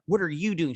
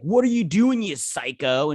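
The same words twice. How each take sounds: First: Higher-pitched question at everyday volume; retold retort. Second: High, loud burst on the question, then dropping; retold outraged protest. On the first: Retelling Courtney's answer to the girl she flipped, retort. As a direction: toss the question back, raised but not shouted. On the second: Retelling a hockey player flipped over by Courtney, outraged protest. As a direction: act out an indignant yelp.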